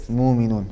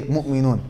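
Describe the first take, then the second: First: Mu'minun as smooth "muuminun", no catch; hamza dropped. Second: Mu'minun with a glottal catch after "mu"; hamza pronounced. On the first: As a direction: glide through mu'minun with a long u and no glottal stop. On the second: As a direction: stop the breath briefly inside mu'minun, after the u. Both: Shown as a demonstration. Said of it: "would not pronounce the letter Hamza".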